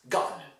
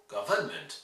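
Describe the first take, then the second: First: "government" as GUV-nment, middle swallowed; first-syllable stress. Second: "Government" with sounded, stressed middle "vern"; French model. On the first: Teacher corrects the French model, "government" reduced after GUV. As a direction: hit "gov" and reduce the rest of "government". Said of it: "No, it's government". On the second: Teacher shows students' error, "Government" on the French model. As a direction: say "Government" guv-ERN-ment, French-like. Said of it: "pronouncing it closer to the French model". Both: Shown as a demonstration.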